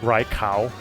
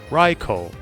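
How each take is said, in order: First: The last syllable rhymes with the word 'cow'. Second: The last syllable has a long held 'o' vowel. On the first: "I like Rai, Rai cow" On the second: "hold the O sound and make sure it's not cow, it's ko"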